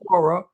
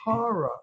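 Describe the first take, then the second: First: Horror is said with a Midwestern or Californian vowel. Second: Horror is said with a New York vowel. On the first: The speaker calls it wrong. "It's not horror" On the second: The speaker calls it right. "It's horror"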